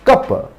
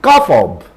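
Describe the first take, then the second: First: The word of shrinks to a weak sound. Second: The word of is pronounced in full.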